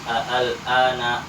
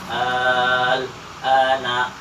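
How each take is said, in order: First: The hamza is softened between hamza and alif. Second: The hamza is replaced by a long vowel. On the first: "boleh dibaca tashil" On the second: "boleh dibaca ibdal"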